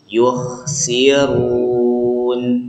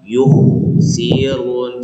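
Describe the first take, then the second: First: The lips are relaxed on the kh sound. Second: The lips stay rounded on the kh sound. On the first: The speaker calls it right. "tarik bibirnya, kita jadi biasa, jadi rileks gitu" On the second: The speaker calls it wrong. "jadi tetap monyong gitu ya karena sebelumnya doma"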